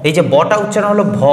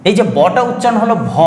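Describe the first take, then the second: The two takes are said the same way.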